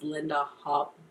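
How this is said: The name is said with a Swedish pronunciation.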